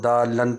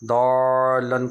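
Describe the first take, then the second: First: The first vowel is cut short. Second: The first vowel is stretched long. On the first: The speaker calls it wrong. "कसर करना" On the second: The speaker calls it right. "मद्दे लाजिम"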